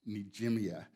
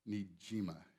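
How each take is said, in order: First: The name ends with an extra 'ee-a' sound. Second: The name ends cleanly with a 'ma' sound. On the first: The speaker calls it wrong. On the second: The speaker calls it right.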